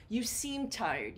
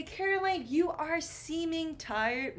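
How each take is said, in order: First: Said in the usual way. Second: High, exaggerated wrong example; wrong version. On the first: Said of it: "Mm-mm". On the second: Shown as a demonstration. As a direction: say it like the mistake. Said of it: "I do not say".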